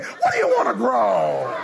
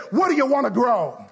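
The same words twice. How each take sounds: First: Like you mean it. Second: Said in the usual way. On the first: Shown as a demonstration. Preacher coaching the congregation to say it like they mean it, emphatic. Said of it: "No, say it like you mean it". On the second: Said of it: "say it like you mean it".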